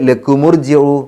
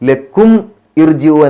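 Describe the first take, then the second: First: The words are linked with an added u. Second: The two words are said separately.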